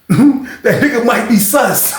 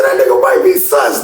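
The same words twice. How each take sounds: First: Slow, laughing through the line; cracking up. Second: Much higher, loud; mock yell; mock shout. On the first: Real, not acted. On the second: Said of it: "he said".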